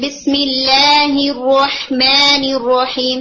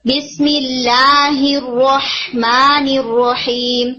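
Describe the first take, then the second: First: بسم اللہ الرحمن الرحیم slow with tilted alif sounds; slanted alif, wrong. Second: بسم اللہ الرحمن الرحیم slow with perfectly straight alif. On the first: Teacher imitating a disallowed reading. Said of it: "that's not allowed". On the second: Teacher showing the correct straight alif. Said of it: "You have to make it very, very straight". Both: Shown as a demonstration.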